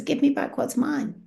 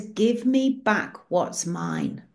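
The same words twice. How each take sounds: First: Higher, lightly stern repeat of the demand; stern Jesus. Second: Slow, lightly stern demand; a hint of thunder, said slowly; stern Jesus. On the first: Retold or imitated. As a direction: press the demand again, not slowed. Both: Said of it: "Jesus' face looks like thunder".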